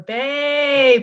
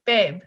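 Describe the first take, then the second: First: It is said in an obnoxious, drawn-out way. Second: It is said plainly at normal length.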